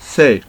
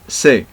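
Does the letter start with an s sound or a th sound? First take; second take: th sound; s sound. First: It starts with a th sound. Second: It starts with an s sound. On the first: This is how it is said in Spain. "In Spain, the people, the Spanish people, they pronounce this th, th, like this" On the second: This is how it is said in South America. "But in South America, the people pronounce it like this, se, normal"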